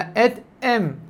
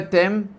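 First: A glottal catch separates the two words. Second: The two words run together without a glottal catch. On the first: The speaker calls it right. "אלא את אם, לבטא את א'" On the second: The speaker calls it wrong. "לא את אם"

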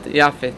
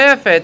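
First: The first vowel is a: Yafet. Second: The first vowel is e: Yefet. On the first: It stands at a major pause in the verse. "כשיפת מגיע באתנח או בסוף פסוק, אז הוא הופך להיות יפת" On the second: It is the ordinary form of the name. "התשובה היא קוראים לו יפת"

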